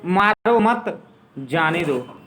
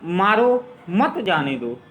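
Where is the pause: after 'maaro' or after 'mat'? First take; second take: after mat; after maaro. First: There is a pause after 'mat'. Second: There is a pause after 'maaro'. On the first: Do not hit him, let him go. "यहाँ पे अल्पविराम लगाएंगे मत के बाद जाने दो" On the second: Hit him and do not let him go. "अल्पविराम लगा देंगे तो मत जाने दो, ये हो गया मारो मत जाने दो"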